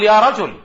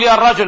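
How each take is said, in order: First: يا رجل with no article, said plainly; صواب: يا رجل; correct form. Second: يا الرجل said with the article al, as the wrong form; خطأ: يا الرجل. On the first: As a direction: say يا رجل dropping al after يا. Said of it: "بل نقول". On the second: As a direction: say يا الرجل keeping al after يا. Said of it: "لا نقول". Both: Shown as a demonstration.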